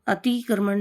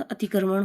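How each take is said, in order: First: अतिक्रमण with a long stretched tee; wrong form of अतिक्रमण. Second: अतिक्रमण with a short ti; correct form of अतिक्रमण. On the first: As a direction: say अतिक्रमण as atee-kraman. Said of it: "नहीं होता". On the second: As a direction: say अतिक्रमण moving quickly off the ti. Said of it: "छोटा ती आएगा". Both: Shown as a demonstration.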